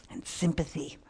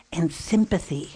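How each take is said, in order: First: Quiet reflective repeat; soft echo. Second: Said in the usual way. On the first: Shown as a demonstration. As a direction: repeat it much softer, almost to yourself.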